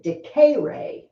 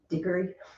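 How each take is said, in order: First: The middle E is long and stressed. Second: The middle E is short and unstressed. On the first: The verb has a macron over the E. "If I said decare, to me that means it's got the line" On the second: The verb has no macron over the E. "But if I say diggory, it doesn't have the line"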